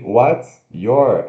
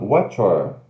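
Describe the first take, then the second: First: The two words are kept separate. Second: The two words blend into one sound. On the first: The speaker calls it wrong. "Ao invés de what's your" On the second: The speaker calls it right. "a gente vai falar what's your"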